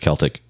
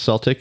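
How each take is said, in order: First: The word begins with a K sound. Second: The word begins with an S sound. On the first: It refers to the Celtic culture and music. "New Age music listener, it's Celtic" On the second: It names the basketball team. "if you're a basketball fan, it's Celtic"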